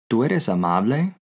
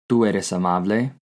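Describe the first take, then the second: The two takes are said the same way.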